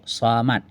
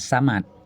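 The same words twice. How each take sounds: First: The s sound is heavy and emphatic. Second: The s sound is light and plain. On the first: The speaker calls it right. "Huruf sad" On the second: The speaker calls it wrong. "jangan samad"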